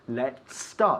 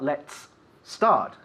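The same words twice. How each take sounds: First: The two words run together without a break. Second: The two words are said apart with a break. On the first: The speaker calls it right. "You have linked the two words" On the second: The speaker calls it wrong.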